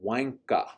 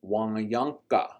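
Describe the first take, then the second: First: The middle syllables are merged into one. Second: All the syllables are said out in full.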